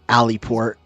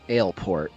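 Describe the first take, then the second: First: The name starts with two syllables, like 'alley'. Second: The name starts with one syllable, like 'ale'. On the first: The speaker calls it wrong. "and not Alleyport, how I've been saying it" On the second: The speaker calls it right. "I'm assuming it's how you're supposed to actually pronounce it"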